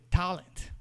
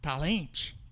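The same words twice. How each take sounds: First: The stress is on the first syllable. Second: The stress is on the second syllable. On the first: The speaker calls it right. "que é talent" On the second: The speaker calls it wrong. "se você for no vício, você vai falar talent... Porque você vai no ritmo do português"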